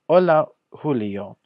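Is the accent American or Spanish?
Spanish. It is spoken with a native Spanish accent. The speaker calls it right. "next I'm going to read it in the proper Spanish pronunciation"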